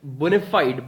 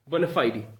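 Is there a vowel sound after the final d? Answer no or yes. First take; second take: No; Yes. First: The word ends on the d, no vowel after. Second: A faint i sound follows the final d. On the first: The speaker calls it wrong. "generally people speak it bona fide" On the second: The speaker calls it right. "There's a very little sound of I after D"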